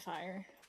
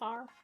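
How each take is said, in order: First: Fire is said with a gliding eye vowel. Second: Fire is said as one flat syllable, far. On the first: "but I say fire" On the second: "far is the real heavy Appalachian way to say it"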